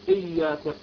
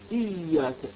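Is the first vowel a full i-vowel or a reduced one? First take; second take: reduced; full. First: The first vowel is not a full i-vowel. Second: The first vowel is a full clear i-vowel. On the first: The speaker calls it wrong. "لا نقول إياك إيه" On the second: The speaker calls it right. "اكسر الهمزة كسرا كامل"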